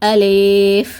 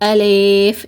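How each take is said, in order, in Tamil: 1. இரண்டாவது உயிர் 'e' போல ஒலிக்கும். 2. இரண்டாவது உயிர் 'e' போல ஒலிக்கும்.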